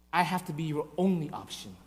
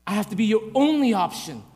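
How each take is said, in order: First: Low, soft and grave; hushed divine reply; quiet insistence. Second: "only option" in full voice, with ONLY stressed; emphatic declaration, leaning on "only"; firm insistence. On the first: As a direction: state it quietly, as a solemn condition. God's reply, first said quietly. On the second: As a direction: press firmly on "only". God's reply repeated with force. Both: Acted.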